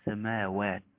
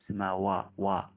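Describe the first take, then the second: First: The waw sounds light and pure. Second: The waw sounds heavy and emphatic. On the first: The speaker calls it right. "واو خالصة" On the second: The speaker calls it wrong. "تحذر من أن يكون هناك شيء من التفخيم"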